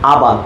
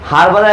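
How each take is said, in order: First: The word starts with a vowel, no h. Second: The word starts with a pronounced h sound. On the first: "American sound হচ্ছে" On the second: "এটা British sound"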